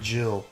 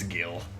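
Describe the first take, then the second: First: The word begins with a soft j sound. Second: The word begins with a hard g sound. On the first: The speaker calls it wrong. "Just to give you an ear twinge. No, I don't pronounce it Jill" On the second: The speaker calls it right. "It's Gil"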